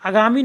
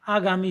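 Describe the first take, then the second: First: आगामी begun short, as "agami"; wrong short first vowel. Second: आगामी with a long, weighted "aa"; stressed first vowel. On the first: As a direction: keep the opening of आगामी light. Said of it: "आगामी नहीं होता है". (आगामी का पहला आ छोटा) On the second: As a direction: lean on the opening आ of आगामी. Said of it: "इस पे जोर देंगे". (आगामी के आ पर ज़ोर) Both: Shown as a demonstration.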